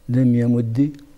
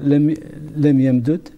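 First: The doubled d ends with a short i. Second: The doubled d is split, ending without vowel.

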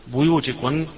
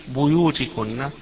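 No difference in how they are said.

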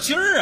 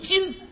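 First: The word ends with an r-coloured sound. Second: The word ends without an r-coloured sound. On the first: This is the colloquial form. The speaker calls it wrong. "什么叫今儿啊？" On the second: This is the standard form. The speaker calls it right. "正字读今"

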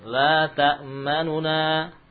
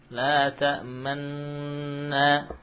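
First: A quick, shortened u separates the two n sounds. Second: The two n sounds merge into one long n. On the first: "ikhtilas membaca 2/3 harakat" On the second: "itu ismam"

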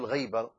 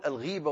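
First: The first syllable is pronounced ghay, with a diphthong. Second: The first syllable is pronounced ghee, with a long i. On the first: Absence, not being present. The speaker calls it wrong. "ولا نقول الغيبة" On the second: Speaking ill of someone behind their back. The speaker calls it right. "نقول الغيبة"

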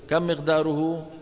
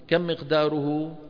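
The two takes are said the same way.

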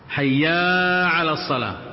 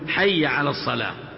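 First: A long vowel is added after the first word. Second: No vowel is added after the first word. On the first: The speaker calls it wrong. "منها أن البعض منهم يقول حيا على الصلاة" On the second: The speaker calls it right. "واجب أن يقول حي على الصلاة"

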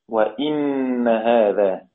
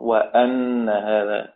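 First: An i vowel, followed by a doubled n. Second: Open a vowel, followed by a doubled n. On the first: "بكسر الهمزة وتشديد النون" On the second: "بفتح الهمزة وتشديد النون"

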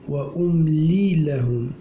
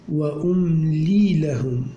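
Both takes have the same delivery.

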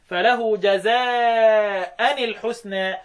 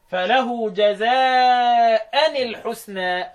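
First: Jaza' ends with the sound -an. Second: Jaza' ends with the sound -an.

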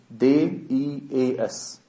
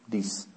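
First: Each letter is said by its name. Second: It is read as one whole word. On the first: "Ich lese die Namen der Buchstaben" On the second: "du schaust dir das Wort dies an"

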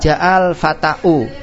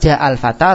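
First: The last word ends in a glottal stop and u. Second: The last word ends in a plain long a. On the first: The final letter would be a hamzah, not alif. The speaker calls it wrong. "Tidak boleh untuk mengatakan ja'al fata'u" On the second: The final letter is an alif that takes no vowel. The speaker calls it right. "Maka antum baca ja'al fata"

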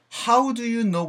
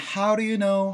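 First: Each word is pronounced fully and separately. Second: The words are reduced and run quickly together. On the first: "How do you know 보단" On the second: "약간 How do you know? 사운드가 만들어지죠"

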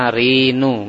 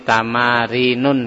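First: The word ends on a plain u vowel. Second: The word ends with an added n sound. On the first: The speaker calls it right. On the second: The speaker calls it wrong.

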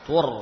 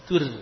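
First: The r is heavy and thick. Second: The r is light and thin. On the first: The speaker calls it right. "ini seharusnya demikian" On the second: The speaker calls it wrong. "Kalau tur ini masih tipis"

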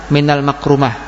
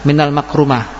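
No difference in how they are said.

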